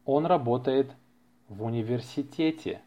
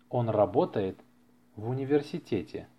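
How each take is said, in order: Both takes have the same delivery.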